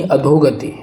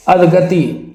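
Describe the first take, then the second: First: अधोगति said as "adho-gati"; correct "dho". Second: अधगति said as "adh-gati"; missing "o". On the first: Teacher gives the correct word, अधोगति as "adho-gati". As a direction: sound the o in अधोगति. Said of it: "ये है शुद्ध". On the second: Teacher shows the mistake, अधगति as "adh-gati". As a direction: drop the o in अधगति. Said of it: "अधगति नहीं". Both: Shown as a demonstration.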